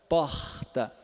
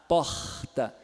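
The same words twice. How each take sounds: No difference in how they are said.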